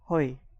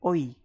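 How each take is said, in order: First: The word starts with an audible h sound. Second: The word starts directly with the vowel sound. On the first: The speaker calls it wrong. "it's not hoi" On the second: The speaker calls it right. "it is oi"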